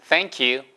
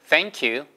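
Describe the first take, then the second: The two takes are said the same way.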